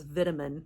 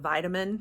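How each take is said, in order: First: It is said with a British pronunciation. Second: It is said with an American pronunciation. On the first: "She also says vitamin" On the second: "instead of vitamin"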